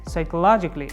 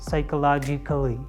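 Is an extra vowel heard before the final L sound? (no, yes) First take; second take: no; yes. First: No vowel is heard before the L. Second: An extra vowel is heard before the L. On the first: The speaker calls it right. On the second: The speaker calls it wrong.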